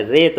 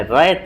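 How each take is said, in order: First: रेत with a pure 'e'; simple e vowel. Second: रैत with a wide 'ai' instead of e; open ai vowel. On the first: Teacher showing the right form, pure e in रेत. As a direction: say रेत with a plain closed e. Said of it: "रेत बोलते हैं". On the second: Teacher showing the rejected form, wide 'ai' in रैत. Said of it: "रैत नहीं बोलते हैं". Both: Shown as a demonstration.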